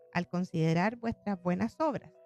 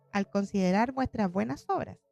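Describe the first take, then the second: Both takes have the same delivery.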